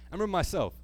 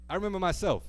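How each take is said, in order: Both takes have the same delivery.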